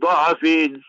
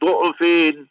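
First: The first vowel is an 'a' sound. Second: The first vowel is a 'u' sound. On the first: "you can read it du'afin with the fatha zabar on the du'ad" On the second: "or you can read it with the dhamma"

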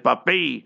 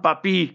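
First: The name ends with an 'ay' sound. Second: The name ends with an 'ee' sound. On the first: The speaker calls it right. "they pronounce it as Papay" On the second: The speaker calls it wrong. "not Papi"

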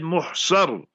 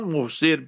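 First: The last syllable has an 'a' vowel. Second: The last syllable has an 'i' vowel. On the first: The speaker calls it right. "You call it Muhsar, but Fatha, Zabar on the Saad" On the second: The speaker calls it wrong. "not Muhsir"

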